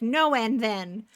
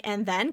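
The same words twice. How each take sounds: First: Slow, emphatic imitated "No", then "and then"; mock refusal, dragging out the words; retold refusal. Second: Lightly imitated "and then?" with a rising end; encouraging prompt. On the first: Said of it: "And then he's like". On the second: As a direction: mildly coax for more of the order. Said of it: "she's encouraging him to order more".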